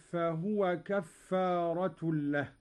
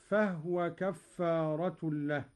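First: Said in the usual way. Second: فهو said "fahwa", no vowel on the ha; إسكان الهاء. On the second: Shown as a demonstration. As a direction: close the ha of فهو straight onto the waw. (فهو بهاء ساكنة) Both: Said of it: "بإسكان الهاء هكذا".

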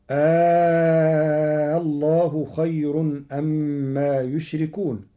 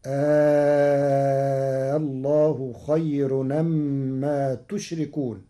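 First: يشركون begins with a y sound; slow chant ending in يشركون with y; reading with يشركون. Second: تشركون begins with a t sound; slow chant ending in تشركون with t; Warsh reading with تشركون. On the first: Teacher recites the usual form, يشركون with y. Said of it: "قرأ ورش كلمة يشركون". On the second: Teacher shows Warsh, تشركون with t. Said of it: "بتاء الخطاب". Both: Shown as a demonstration.

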